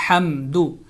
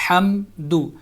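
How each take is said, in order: The two takes are said the same way.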